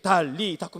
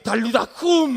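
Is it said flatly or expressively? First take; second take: flatly; expressively. First: It is said flatly, without feeling. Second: It is said expressively, like a real command.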